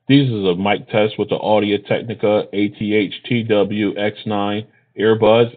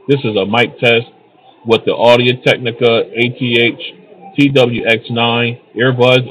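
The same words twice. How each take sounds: First: The voice is heard against a quiet background. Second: The voice is heard against crowd noise. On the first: "in a quiet location" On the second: "in a crowded location"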